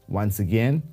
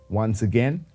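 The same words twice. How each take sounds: No difference in how they are said.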